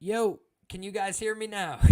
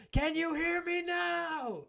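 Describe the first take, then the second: First: Said in the usual way. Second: Slow, drawn-out high wrestler taunt; Brock Lesnar voice. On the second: Retold or imitated. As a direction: stretch it out like a wrestling promo. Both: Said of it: "That's an old Brock Lesnar quote".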